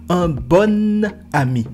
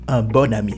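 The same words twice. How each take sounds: First: The emphasis falls on the N of bon. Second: The emphasis falls on the O of bon. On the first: The speaker calls it wrong. "Il ne faut jamais dire" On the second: The speaker calls it right. "le N de bon était collé avec le A"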